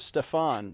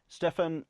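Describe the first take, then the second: First: The name is said with a French pronunciation. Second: The name is said with an English pronunciation. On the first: "the French pronunciation" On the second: "that's not the French pronunciation"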